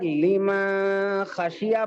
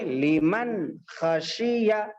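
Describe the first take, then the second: First: The n sound is hidden, not clearly pronounced. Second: The n sound is pronounced clearly and distinctly. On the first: The speaker calls it wrong. "लीमा खशिया पढ़ना गलत है" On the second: The speaker calls it right. "साफ नून को जाहिर करके पढ़ना है"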